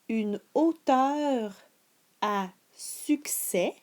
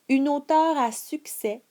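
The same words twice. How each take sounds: First: It is read at a slower, deliberate speed. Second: It is read at a normal, regular speed. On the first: "Je répète la phrase plus lentement" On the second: "régulière"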